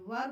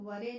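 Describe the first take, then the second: First: The word ends on the r, with no vowel. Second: The word ends with a short e vowel. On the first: The speaker calls it right. "वर बोलेंगे इसको" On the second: The speaker calls it wrong. "वरे नहीं बोलेंगे"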